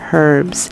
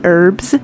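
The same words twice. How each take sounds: First: The word begins with an audible H sound. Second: The word begins with a vowel, no H. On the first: "So I pronounce it with the H" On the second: "some say it just with the E"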